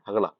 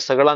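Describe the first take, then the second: First: The word begins with an h sound. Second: The word begins with an s sound. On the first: "हगड़ा बोलते हैं" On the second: "वहां पे सगड़ा नहीं बोलते"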